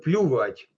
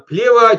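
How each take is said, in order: First: It is said with a Ukrainian-style vowel. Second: It is said with standard Russian pronunciation. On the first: "немного на украинский манер" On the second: "правильно"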